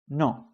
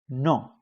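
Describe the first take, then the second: First: It is said with Spanish pronunciation. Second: It is said with Spanish pronunciation.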